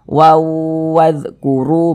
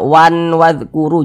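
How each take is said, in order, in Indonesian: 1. Bunyi n menyatu ke dalam w yang ditahan dan berdengung. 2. Bunyi n yang jelas mengakhiri kata pertama. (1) "tapi dibaca waw wadhkuru begitu" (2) "Jangan dibaca wan wadhkuru"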